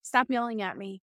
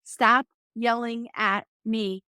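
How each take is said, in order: First: Very calm. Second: Firm and slow, a bit louder but not yelling; telling her ex-husband in the car to stop yelling, firm and calm. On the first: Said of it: "I very calmly said". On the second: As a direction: set a calm boundary, slowly and firmly. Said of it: "I said it a little bit louder so he could hear it, but I was not yelling and I was still calm". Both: Retold or imitated.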